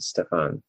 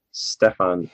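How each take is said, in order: First: Stefan said "Ste-fen", reduced vowel; wrong pronunciation. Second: Stefan said "Ste-fan", open a; correct pronunciation. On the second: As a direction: repeat Stefan with the corrected vowel. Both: Shown as a demonstration. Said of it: "not Stefan".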